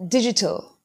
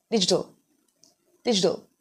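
First: British digital with crisp t; British pronunciation. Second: American pronunciation. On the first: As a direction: say "digital" the British way, each sound clear. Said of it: "you could pronounce this word as". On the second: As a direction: say "digital" the American way, t almost a d. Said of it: "when it comes to American pronunciation". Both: Shown as a demonstration.

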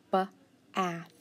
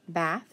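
First: "ba-ath" stretched apart, sound by sound; sounded out slowly. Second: Said in the usual way. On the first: Shown as a demonstration.

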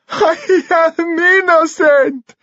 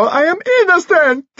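First: High, drawn-out tearful wail; sobbing. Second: High, frantic shriek of protest; scream. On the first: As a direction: wail it slowly through acted sobs. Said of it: "he sobbed". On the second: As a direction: scream it out at speaking pace, desperately. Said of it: "Dimitri screamed". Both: A narrator's reading.

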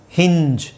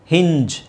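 No difference in how they are said.

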